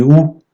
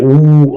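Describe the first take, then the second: First: "ou" clipped short and light; short vowel ou. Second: "ou" drawn out as a full long vowel. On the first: Teacher showing the short Arabic vowel, said short and light. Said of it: "de manière un peu plus allégée". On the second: Teacher showing the long Arabic vowel, held long. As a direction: hold the "ou" long and marked. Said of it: "voyelles longues ... de manière un peu plus allégée". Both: Shown as a demonstration.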